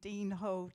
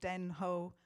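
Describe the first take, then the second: First: The first word has a long ee vowel. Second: The first word has a short e vowel. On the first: "I'm told by most people in the know that it's Dean hole" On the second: "places like Tenterden end in den"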